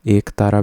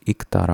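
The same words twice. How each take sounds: First: एक तारा opened with long "ek"; long e at the start of एक तारा; wrong long e. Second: इक तारा opened with short "ik"; short i at the start of इक तारा; correct short i. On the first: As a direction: say एक तारा as "ek taara". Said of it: "भी नहीं होता". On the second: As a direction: say इक तारा as "iktaara". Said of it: "होता है". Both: Shown as a demonstration.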